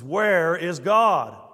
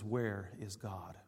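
First: It is said somewhat louder and more sternly. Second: It is said at a normal, moderate volume. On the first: "raised his voice a little bit more sternly" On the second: "with very strong gaze"

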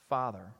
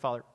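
First: The word is said slowly and deliberately. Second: The word is rushed and rolled over quickly. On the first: The name is addressed with real attention. The speaker calls it right. "how about say his name?" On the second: The name is treated as a formality. The speaker calls it wrong. "just roll over the word, like to get it out as quick as you can"

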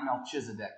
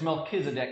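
First: The middle consonant is a ch sound. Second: The middle consonant is a hard k sound. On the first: The speaker calls it wrong. "not Melchizedek" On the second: The speaker calls it right. "The CH in there makes a K sound in Hebrew"

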